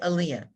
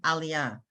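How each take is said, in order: First: It is said with an American pronunciation. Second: It is said with an Israeli Hebrew pronunciation. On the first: The speaker calls it wrong. "some people say" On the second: The speaker calls it right. "when you go to Israel"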